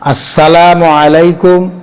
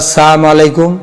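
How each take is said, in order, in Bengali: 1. S-এর পরের L ধ্বনিটি স্পষ্টভাবে উচ্চারিত হয়। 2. S-এর পরের L ধ্বনিটি বাদ যায়।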